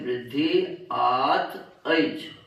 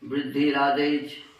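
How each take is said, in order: First: Each word is said separately, not linked. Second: The words are run together into one phrase.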